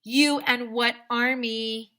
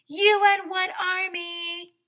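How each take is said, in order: First: Slow, louder taunt; slow loud movie-hero dare; cocky dare. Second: High, loud, slow defiant yell; loud taunt. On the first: Shown as a demonstration. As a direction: sneer the challenge. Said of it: "you should always say". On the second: Retold or imitated. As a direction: throw the dare right at him. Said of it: "I said".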